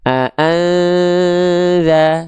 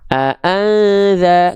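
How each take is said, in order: First: The nasal sound is held before za. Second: The nasal sound moves straight into za. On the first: The speaker calls it right. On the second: The speaker calls it wrong. "jangan langsung"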